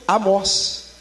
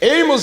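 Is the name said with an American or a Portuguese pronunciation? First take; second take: Portuguese; American. First: The name is said with a Portuguese pronunciation. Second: The name is said with an American pronunciation. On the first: "para o nome Amós" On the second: "é uma pronúncia americana"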